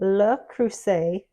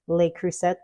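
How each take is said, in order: First: The name is pronounced the French way. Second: The name is pronounced the American way. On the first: The speaker calls it right. "is how you say it in French" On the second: The speaker calls it wrong. "here in the U S a lot of us say"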